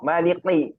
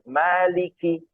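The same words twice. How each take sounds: First: The k-like sound is made with no breath. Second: The k sound is released with audible breath. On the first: It becomes a different letter with a different meaning. The speaker calls it wrong. "malikinya pakai kof maliki, nah itu nggak keluar udaranya" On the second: It is the intended letter. The speaker calls it right. "kalau kaf keluar maliki"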